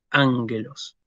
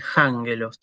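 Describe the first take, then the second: First: Ángelos starting straight on a stressed A; no aspiration. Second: Jángelos with a breathy h-sound before the first a; wrongly aspirated. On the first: Teacher shows what to say, unaspirated onset. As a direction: open ángelos on a clean vowel, no h-sound. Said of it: "no tengo que hacer una aspiración". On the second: Teacher shows what not to say, aspirated onset. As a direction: add an aspiration at the start of jángelos. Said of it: "yo no tengo que decir jángelos". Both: Shown as a demonstration.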